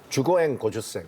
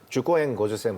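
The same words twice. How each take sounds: No difference in how they are said.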